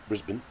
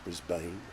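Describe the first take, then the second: First: Said in an Australian accent, ending like 'bun'. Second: Said in an American accent, ending like 'bane'. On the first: "B R S B U N" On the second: "as the Americans would say"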